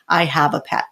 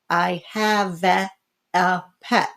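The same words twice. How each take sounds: First: The vowel in 'have' is normal. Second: The vowel in 'have' is distorted. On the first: The reader recognizes the familiar word. The speaker calls it right. "naturally flex the pronunciation and can self-correct" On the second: The reader is decoding letter by letter. The speaker calls it wrong. "a lot of beginning readers tend to go"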